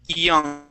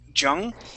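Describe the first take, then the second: First: The word begins with a quick Y glide. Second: The word begins with a J-like sound. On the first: The speaker calls it right. "we want to say young, E" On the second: The speaker calls it wrong. "you had pronounced it with a Spanish Y"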